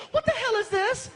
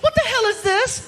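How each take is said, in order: First: Put-on much higher, indignant girlfriend; shocked girlfriend. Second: Put-on much higher, louder girlfriend squeal; shocked girlfriend. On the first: Girlfriend in the kitchen at night, in a much higher shocked voice. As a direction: squeal it like a startled girlfriend. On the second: Girlfriend in the kitchen at night, shrieking much higher and louder. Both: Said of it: "she's like".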